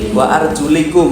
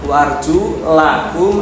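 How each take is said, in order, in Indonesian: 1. Vokal sebelum -kum adalah bunyi i. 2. Vokal sebelum -kum adalah bunyi a. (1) "ada yang membaca dengan kasroh" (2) "ada yang membaca dengan fathah"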